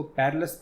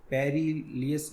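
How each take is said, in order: First: पेरिलस said compactly as "perr-lus"; पेरिलस run together, ending in a short "lus"; correct perilous pronunciation. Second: पेरिलियस sounded out with an extra "ee-yus"; wrong reading पेरिलियस, split into "peri" and "liyas"; mispronounced perilous. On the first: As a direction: say पेरिलस with no "ee-yus" in it. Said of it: "इसको पेरिलस पढ़ेंगे". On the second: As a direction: read पेरिलियस letter by letter, as "peri-li-yes". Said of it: "पेरिलियस नहीं पढ़ेंगे". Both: Shown as a demonstration.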